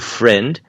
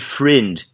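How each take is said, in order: First: The vowel is open, in a standard accent. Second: The vowel is most closed, in a New Zealand accent. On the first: "Você tem a pronúncia padrão de amigo" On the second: "friend quando você vai para Nova Zelândia"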